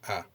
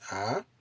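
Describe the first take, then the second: First: The pitch stays low and level. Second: The pitch rises across the vowel. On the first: "it indicates low intonation as here" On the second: "this is the ah, increasing intonation"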